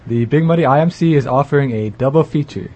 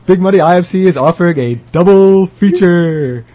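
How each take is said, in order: First: It is said in a flat monotone. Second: It is said in a lively commercial style.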